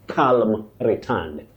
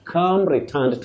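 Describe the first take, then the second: First: The L sound in calm is pronounced. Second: The L sound in calm is silent. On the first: The speaker calls it wrong. "not calm returned" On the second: The speaker calls it right. "And we also say calm"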